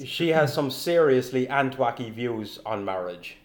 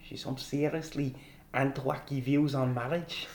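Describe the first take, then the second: First: It is spoken in a plain, non-Scottish accent. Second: It is spoken in a put-on Scottish accent.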